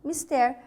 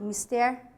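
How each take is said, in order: First: The stress is on the last syllable. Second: The same.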